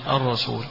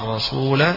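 First: The word ends on the consonant l, no vowel. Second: The word ends with a long a vowel. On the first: "يكون باللام من غير ألف" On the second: "بالألف في الحالين سواء وقفا أو وصلا"

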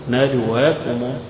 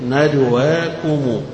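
The two takes are said the same way.

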